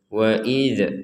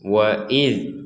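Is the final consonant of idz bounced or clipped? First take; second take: bounced; clipped. First: The final consonant ends with a small bouncing echo. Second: The final consonant is held without any bouncing echo. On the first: The speaker calls it wrong. "jangan dibaca wa idz wa idz" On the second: The speaker calls it right. "itu yang benar"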